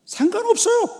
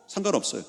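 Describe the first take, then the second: First: Very high, loud outburst; emphatic shout. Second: Said in the usual way. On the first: Real, not acted. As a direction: shout it out to the congregation. Emphatic declaration, then repeated normally. (높고 크게 외치기)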